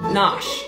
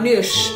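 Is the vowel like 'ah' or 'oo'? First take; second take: ah; oo. First: The vowel sounds like ah. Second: The vowel sounds like oo. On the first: The speaker calls it right. "not noosh, nosh" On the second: The speaker calls it wrong. "not noosh"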